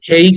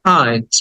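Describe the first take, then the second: First: The vowel sounds like 'ay'. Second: The vowel sounds like 'eye'. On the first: The speaker calls it wrong. "হেইট বলি, but শব্দের উচ্চারণ হচ্ছে হাইট" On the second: The speaker calls it right. "But শব্দের উচ্চারণ হচ্ছে হাইট"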